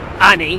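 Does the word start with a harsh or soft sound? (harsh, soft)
harsh. The word starts with a harsh vowel, no H. "the harsh vowels that starts the words, and they'll drop the H"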